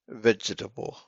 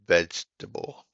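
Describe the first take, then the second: First: Every vowel is sounded, giving four syllables. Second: The second vowel drops, giving three syllables. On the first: The speaker calls it wrong. "is how it's spelled" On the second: The speaker calls it right. "As if the second E doesn't exist"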